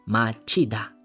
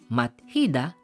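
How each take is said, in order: First: The syllables merge into a single 'ch' sound. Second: The syllables are separate with 't' then 'h'. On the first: "magiging machida" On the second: "mat plus hida"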